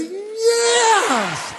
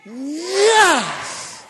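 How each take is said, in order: First: Much higher cry of yes; the better take, a soaring yes; big joyful shout. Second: Sharp loud yes; crowd-style shout. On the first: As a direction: shout it out with everything. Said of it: "Ready? one more time". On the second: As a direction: answer the call with a cry. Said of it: "Are you ready?". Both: Real, not acted.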